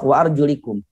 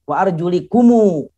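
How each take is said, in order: First: The phrase ends on the consonant m. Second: The phrase ends with an added final vowel. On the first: The reading stops at this word. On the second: The reading continues into the next words. "kalau dibaca wasol"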